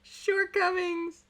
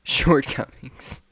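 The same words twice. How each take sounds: First: Squeaky pun echo. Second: Slow deadpan pun. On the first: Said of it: "I wrote that into the script". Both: Shown as a demonstration.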